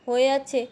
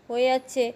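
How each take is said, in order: No difference in how they are said.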